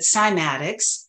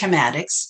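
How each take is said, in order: First: The word is pronounced the Western way. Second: The word is pronounced the German way. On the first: "But in the West, we pronounce it cymatics" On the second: "in Germany they uh, pronounce it chematics"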